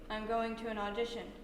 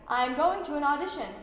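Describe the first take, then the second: First: It is said flat, with no expression. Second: It is said with big, exaggerated energy. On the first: "We may try a dead face" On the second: "we're gonna try really big"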